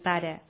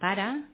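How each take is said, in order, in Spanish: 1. La vocal final es una schwa neutra. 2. La vocal final es una a abierta. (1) "En comptes de dir pare" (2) "Lo de la E àtona, que la pronuncia na"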